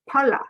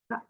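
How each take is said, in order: First: A vowel sound separates the P and L. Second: The P glides straight into the L. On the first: The speaker calls it wrong. "And our blend is not pala" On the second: The speaker calls it right. "It's uh, pla"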